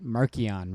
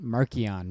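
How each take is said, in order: First: The middle consonant is a hard k sound. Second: The same.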